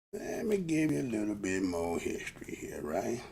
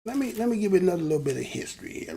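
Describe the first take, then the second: First: Low, soft, stretched-out delivery; lazily drawn, lower and softer restatement. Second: Said in the usual way. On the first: Real, not acted. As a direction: drag "Let me give you a little bit more history here" out, sinking low. Same line repeated low and slow.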